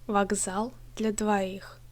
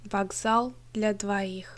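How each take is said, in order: No difference in how they are said.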